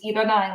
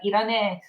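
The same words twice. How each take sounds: First: Said in the usual way. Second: "Irane" with the ending contracted to a long "e"; boyish Japanese. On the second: Shown as a demonstration. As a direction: say "Irane" casually, ending in "-ne" rather than "-nai". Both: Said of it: "It's a lot of boyish words".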